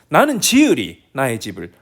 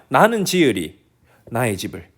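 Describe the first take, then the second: First: The stress falls on the word 지으리. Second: The stress falls on the word 집을. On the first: "하면은 지으리가 강조될 수도 있고" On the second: "이렇게 했을 때는 뭐 집이 강조될 수도 있고"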